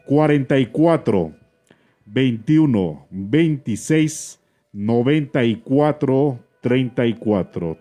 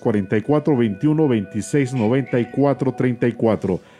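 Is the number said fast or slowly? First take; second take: slowly; fast. First: The number is said at a slow pace. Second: The number is said at a fast pace.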